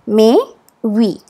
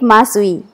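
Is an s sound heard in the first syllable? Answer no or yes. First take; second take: no; yes. First: No s sound is heard in the first syllable. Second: An s sound is heard in the first syllable. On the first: The speaker calls it right. "It is Mehvi" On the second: The speaker calls it wrong. "Don't call it Masvi"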